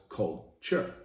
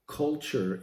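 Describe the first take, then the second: First: "culture" broken in two, cult, pause, ture; split word. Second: Said in the usual way. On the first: Shown as a demonstration. Host explaining his mentor's saying, "culture" split after cult.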